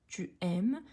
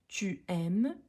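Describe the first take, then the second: Both takes have the same delivery.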